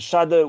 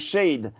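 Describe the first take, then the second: First: The name is pronounced with German sounds. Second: The name is pronounced without German sounds. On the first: "je vais le prononcer à l'allemande" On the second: "dans un autre flow"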